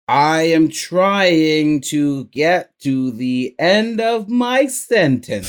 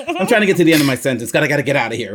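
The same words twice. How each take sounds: First: Dragging each word out, straining to reach the end; slow, effortful mock thinking; slow strained. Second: Fast, hurried mock panic; rushed panic. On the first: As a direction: plod toward the end of the sentence. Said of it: "you're like". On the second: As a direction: race through it to escape the sentence. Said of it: "So you're like".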